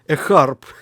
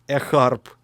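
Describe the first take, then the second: First: It is said in a Russian accent. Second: It is said in a Russian accent.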